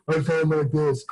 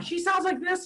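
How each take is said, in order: First: Put-on dopey guy voice; dumb man voice. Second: Very high mock falsetto; Shauna impression. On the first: Man showing how his significant other imitates him, dopey voice. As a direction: sound like a mocked, dumber man. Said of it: "when she imitates me". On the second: Man showing how he imitates his significant other, high falsetto. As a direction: put on an exaggerated squeaky woman's voice. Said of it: "when I imitate Shauna". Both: Shown as a demonstration.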